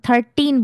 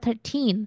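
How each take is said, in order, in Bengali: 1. প্রথম অক্ষরে জোর পড়েছে। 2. দ্বিতীয় অক্ষরে জোর পড়েছে। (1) "আমি থার্টিন বলবো না।" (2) "তারা বলে থার্টিন।"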